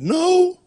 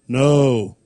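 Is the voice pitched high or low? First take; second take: high; low. First: The word is said in an ordinary higher voice. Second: The word is said in a very deep voice.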